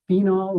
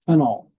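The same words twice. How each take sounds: First: The first vowel is a long E. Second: The first vowel is a short E. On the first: "with a long E" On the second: "a short E as in phenol"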